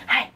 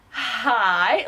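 First: Short, quick hi; instant eager greeting. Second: Long, stretched hi; drawn-out phone greeting. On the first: Vlogger picking up after the first ring, instant eager greeting. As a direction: pounce on the greeting. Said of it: "after the first ring, I was like". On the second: Vlogger answering the long-awaited phone call, drawn-out greeting. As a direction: answer with a lingering, rising greeting. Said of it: "after the first ring". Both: Retold or imitated.

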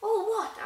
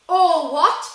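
First: High-pitched puzzled question. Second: Thunderous, high shout; thundered. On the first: Harry asking the giant about his parents, puzzled. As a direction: ask it high, taken aback. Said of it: "asked Harry". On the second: Hagrid outraged that Harry knows nothing, thundering. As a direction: roar it back in outrage. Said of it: "Hagrid thundered". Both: A narrator's reading.

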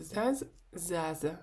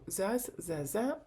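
First: "заза" with the first "за" stressed, the ending dropped; stress on first syllable. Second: "заза" with the final "за" stressed and rising; stress on second syllable. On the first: Teacher shows everyday spoken usage, "заза" stressed on the first syllable. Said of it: "наголос падає на перший склад". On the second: Teacher shows learners the grammar rule, "заза" stressed on the last syllable. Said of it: "Зверніть увагу на наголос". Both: Shown as a demonstration.

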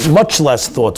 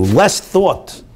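First: MUCH hit hard with a falling tune; stress on much. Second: LESS thought, hit high and held; stress on less thought. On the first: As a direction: lean on the word MUCH. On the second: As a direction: punch the word LESS. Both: Shown as a demonstration.

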